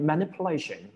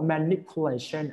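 First: It is said smoothly at natural speed. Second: It is said slowly and very clearly. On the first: "คำนี้มันต้องอ่านเป็น" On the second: "ช้าๆชัดๆได้แต่ว่ามันจะถูกใช้ในการสอนหนังสือ"

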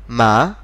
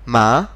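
First: The pitch rises across the syllable. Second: The same.

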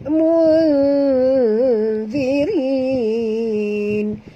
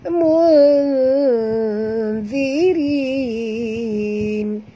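The two takes are said the same way.

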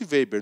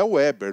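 First: The name is pronounced the German way. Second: The name is pronounced the English way. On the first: The speaker calls it right. "Ele é alemão" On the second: The speaker calls it wrong. "não é Weber, não é em inglês"

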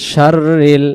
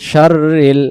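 No difference in how they are said.

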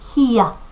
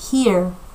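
First: It is said in a British accent. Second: It is said in an American accent. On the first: "영국 발음으로 읽으면" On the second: "이게 미국식인 건데"

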